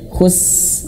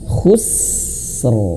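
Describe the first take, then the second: First: The word ends without any r sound. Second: The word ends with a clear r sound. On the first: The speaker calls it wrong. "ro-nya hilang" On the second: The speaker calls it right. "Jadi harus khusr"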